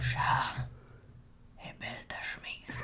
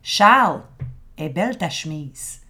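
First: It is said very low, almost whispered. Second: It is said aloud in a normal voice.

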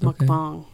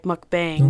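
First: The word is said with native-like, non-English sounds. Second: The word is said with anglicized English sounds. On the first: The speaker calls it right. "But it's mukbang" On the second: The speaker calls it wrong. "if you're saying it in English, you probably think, oh, it's spelled like mukbang"

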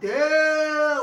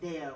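First: It sounds intense, strongly attracted. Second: It sounds mild, casually approving.

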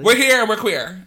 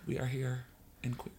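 First: It is said loudly, with more energy. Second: It is said quietly, with low energy.

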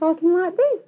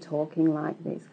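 First: It is said fast with a high pitch. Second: It is said at a medium pace and pitch.

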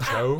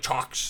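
First: The name ends with an open 'o' sound. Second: The name ends with a 'ks' sound. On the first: The speaker calls it right. "It's usually pronounced like O" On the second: The speaker calls it wrong. "Like chocks"

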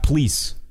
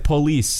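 First: The word is squeezed into one syllable. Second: The word is said with two syllables. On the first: The speaker calls it wrong. "You're saying please" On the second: The speaker calls it right. "It's two syllables"

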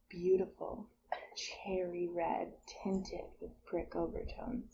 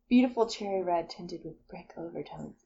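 First: It is read slowly. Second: It is read quickly.

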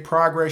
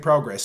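First: The word is said in an American accent. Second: The word is said in a British accent. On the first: "we say progress" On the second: "y'all say progress"

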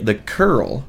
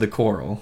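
First: The name is said like the word curl. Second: The name is said like the word coral. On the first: The speaker calls it right. "Would never have pronounced that right" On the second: The speaker calls it wrong. "We would have said the coral"

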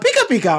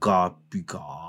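First: It is said in a happy tone. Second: It is said in a curious tone.

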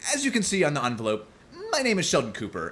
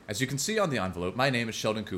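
First: It is read in a Sheldon Cooper impression. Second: It is read in the speaker's own voice.

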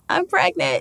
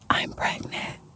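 First: It is said in a normal voice. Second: It is whispered.

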